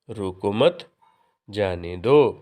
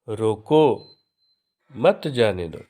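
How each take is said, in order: First: There is a pause after मत. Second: There is a pause after रोको.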